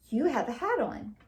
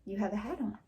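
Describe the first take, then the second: First: Said in the usual way. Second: Softer repeat, falling like a plain statement. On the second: Shown as a demonstration. Teacher repeating a statement more softly for the class. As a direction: say it again more quietly, a flat telling. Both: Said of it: "Did I ask something?".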